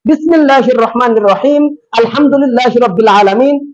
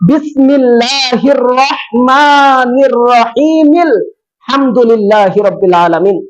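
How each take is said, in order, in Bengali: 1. মাঝখানে একটি বিরতি দুটি বাক্যাংশকে আলাদা করে। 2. দুটি বাক্যাংশ বিরতি ছাড়াই একসাথে পড়া হয়। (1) "এভাবে পড়লেও হবে না" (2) "বিসমিল্লাহর সাথে লাগিয়ে পড়তে হবে"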